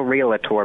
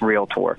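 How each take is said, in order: First: An extra 'la' syllable sits in the middle. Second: No extra syllable sits in the middle. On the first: The speaker calls it wrong. "There is no realtor, but that's the most common way that we hear people pronounce it" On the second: The speaker calls it right. "but it's realtor"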